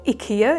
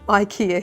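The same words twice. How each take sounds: First: The name is said with its original pronunciation. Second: The name is said with the local pronunciation. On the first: This is the proper pronunciation of the name. "if you want to pronounce it properly" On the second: This is how people say the name here. "we pronounce it IKEA here"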